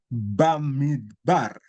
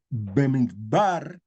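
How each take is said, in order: First: The first syllable has an 'a' vowel. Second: The first syllable has an 'e' vowel. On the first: It means in a specific desert. "cuando se lee Bamidbar, está diciendo en el desierto" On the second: It means in some desert, not a specific one. "Bemidbar significa en un desierto"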